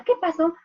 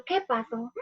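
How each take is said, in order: First: Put-on higher, louder startled child; a child jolted back to attention; child snapping back after silence, startled. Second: Teacher stopping the story on a cliffhanger; suspenseful question. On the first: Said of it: "Y el niño". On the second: Shown as a demonstration. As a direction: leave the class hanging. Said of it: "me quedo en suspenso y digo".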